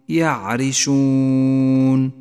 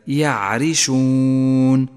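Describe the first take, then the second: The two takes are said the same way.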